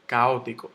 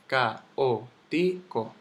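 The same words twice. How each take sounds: First: Said in the usual way. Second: Caótico very slowly as ca-ó-ti-co; syllable by syllable. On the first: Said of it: "yo digo caótico". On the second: Shown as a demonstration. Teacher showing the hiatus, very slow separate syllables. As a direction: pull caótico apart, one syllable at a time. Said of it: "es un hiato".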